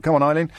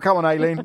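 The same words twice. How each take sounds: First: Eileen said EYE-leen, first syllable like eye. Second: Aileen said AY-leen, first syllable like day. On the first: Real, not acted. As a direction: say Eileen with an eye sound at the start. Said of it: "'cause it's Aileen, not Eileen". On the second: Shown as a demonstration. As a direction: say Aileen with an ay sound at the start. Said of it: "No, that doesn't work at all".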